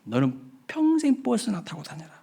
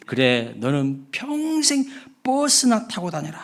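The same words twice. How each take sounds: First: Higher, softer mocking curse; sneering retort. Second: Slow, mocking comeback; retort curse. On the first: Bus driver's curse repeated to the passenger. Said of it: "그렇게 이야기한 거예요". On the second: Bus driver retorting to the rude passenger. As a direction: throw the curse right back, drawn out. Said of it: "이에 질세라 버스 기사가".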